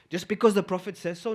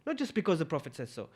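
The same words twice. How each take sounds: First: "Just because the Prophet says so?" rising at the end; rhetorical question. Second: "not just because the Prophet says so", softer and falling; firm rebuttal. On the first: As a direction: ask "says so" as a challenge, tune lifting. Rhetorical question, then answered no. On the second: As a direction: answer it down, "says so" dropping at the end. Answers own question with no. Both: Acted.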